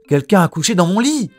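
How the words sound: It is said in Mama Bear's medium voice.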